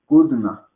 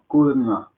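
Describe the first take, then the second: Both takes have the same delivery.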